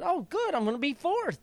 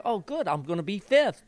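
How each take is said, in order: First: Much higher, eager and delighted; the thrill climbs as he passes another; rising excitement. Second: Talking to himself, cautiously glad; hopeful. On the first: Jockey's inner voice gaining places, higher excitement. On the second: Jockey's inner voice passing horses, mild hope. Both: Retold or imitated. Mid-race inner thoughts.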